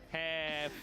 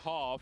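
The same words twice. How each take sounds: First: The word is said in an American accent. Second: The word is said in a non-American accent. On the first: The listener understands the word. The speaker calls it right. "Is that American accent right there? Yeah" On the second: The listener mishears the word as another word. The speaker calls it wrong. "he's like bald"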